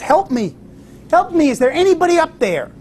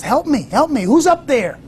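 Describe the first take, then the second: First: High, pleading cries for help; retold shout for help. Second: High, urgent cries for help; desperate plea. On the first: Hiker dangling from a cliff calls for help, high pleading shout. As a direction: call up the cliff, pitched high and desperate. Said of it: "and he shouts". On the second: Retold or imitated. Hiker on the twig begs the voice above, high urgent plea. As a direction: call upward, pitch raised and pleading. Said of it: "The fellow says".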